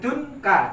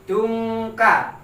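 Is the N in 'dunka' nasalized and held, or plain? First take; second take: plain; nasalized. First: The N is short with no nasal hum. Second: The N is held with a nasal hum like NG. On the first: The speaker calls it wrong. "tidak boleh dunka" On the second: The speaker calls it right. "Ini bacaan harus didengungkan"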